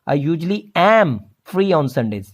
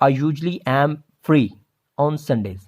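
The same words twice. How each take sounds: First: The word 'am' is strongly stressed. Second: The word 'am' gets no special stress. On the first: The speaker calls it right. "Focus stress देना होगा एम पे" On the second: The speaker calls it wrong. "इस तरह से नहीं करेंगे"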